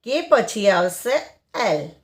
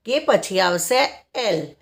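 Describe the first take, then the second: No difference in how they are said.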